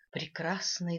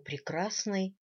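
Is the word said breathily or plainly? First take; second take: breathily; plainly. First: It is said with an audible breathy voice. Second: It is said plainly, without breathiness. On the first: The speaker calls it right. "тут придыхание" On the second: The speaker calls it wrong. "нет, не так"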